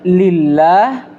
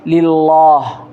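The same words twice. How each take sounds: First: The L in lillah is light and thin. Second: The L in lillah is heavy and thick. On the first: The speaker calls it right. "dibaca tipis" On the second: The speaker calls it wrong. "Tidak boleh kita tebalkan"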